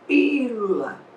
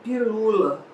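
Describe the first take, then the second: First: The stress is on the first syllable. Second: The stress is on the second syllable. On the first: The speaker calls it right. "quando demorar muito na primeira sílaba" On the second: The speaker calls it wrong. "senão eu vou dizer pilula, mas não digo pilula"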